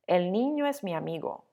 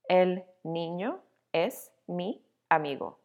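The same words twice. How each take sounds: First: The vowels across words are linked smoothly together. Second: The words are said separately, vowels not linked. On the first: The speaker calls it right. "Let's make it sound more natural" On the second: The speaker calls it wrong. "that sounds a little robotic"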